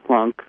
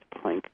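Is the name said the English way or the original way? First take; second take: Original; English. First: The name is said in its original, non-English way. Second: The name is said in an anglicized way.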